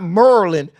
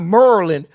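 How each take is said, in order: First: The word is clipped, sounding like Merlin. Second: The word is clipped, sounding like Merlin.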